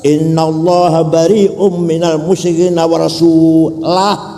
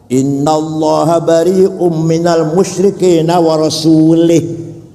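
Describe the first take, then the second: First: The final word ends with a different vowel. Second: The final word ends with an i vowel. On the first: God and His Messenger both disown the idolaters. The speaker calls it right. "Berarti harus" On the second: God disowns the idolaters and also the Messenger. The speaker calls it wrong.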